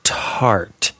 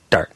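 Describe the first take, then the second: First: TART with a long breathy puff after T. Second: DART, the unaspirated T of start; unpuffed T. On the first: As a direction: tiff the T in tart hard. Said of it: "tiffing and puffing". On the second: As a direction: say dart with no puff of air. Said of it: "in start is dart". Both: Shown as a demonstration.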